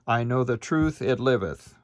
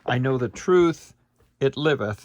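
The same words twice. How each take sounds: First: There is no break after 'truth'. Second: There is a short break after 'truth'.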